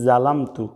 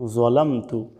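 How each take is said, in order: First: It begins with a plain light z sound. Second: It begins with a heavy emphatic z sound. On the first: The speaker calls it wrong. "জোয়ার জায়গায় বলে থাকি জালামতু" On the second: The speaker calls it right. "এখানে জোয়া দিয়ে"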